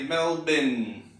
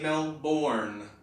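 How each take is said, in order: First: The last syllable is reduced, like 'bin'. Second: The last syllable is full, like 'born'. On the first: The speaker calls it right. "Australians say Melbourne. ... the bin ... we don't hear much R" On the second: The speaker calls it wrong. "You might be tempted, like me, to say Melbourne"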